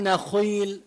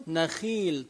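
First: نخيل with a thick, rounded "khuii"; wrong heavy خ. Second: نخيل with a thin "khii"; thin out the خ of نخيل before its long ii; light خ. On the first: Teacher showing what kasra forbids, نخيل with heavy خ. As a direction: overdo the خ in نخيل, backed and heavy. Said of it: "ما بقول نخيل لأنه هي مكسورة". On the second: Teacher correcting to the kasra rule, نخيل with light خ. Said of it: "بقول نخيل ترقق". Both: Shown as a demonstration.

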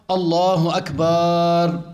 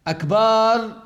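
First: "الله أكبر" with a short, clipped ba; correct takbir. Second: "أكبر" with the ba stretched long; lengthened ba. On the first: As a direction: say "أكبر" without lengthening the ba. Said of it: "إن قال أكبر، يعني مد الباء". (نطق صحيح دون مد الباء) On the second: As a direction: drag out the ba in "أكبر". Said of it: "يعني مد الباء". (مد الباء في أكبر) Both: Shown as a demonstration.

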